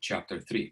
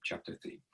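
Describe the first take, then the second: First: Said in the usual way. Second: Breathy whispered repeat of chapter three; whispered aside. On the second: Real, not acted. Lecturer whispers the chapter number to the students.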